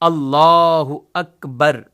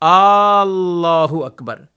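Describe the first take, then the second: First: The opening vowel is kept short. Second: The opening vowel is stretched out long. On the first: The speaker calls it right. "अल्लाह के शुरू के अलिफ पर वो फकत जबर है" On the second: The speaker calls it wrong. "इनको खींचते रहते"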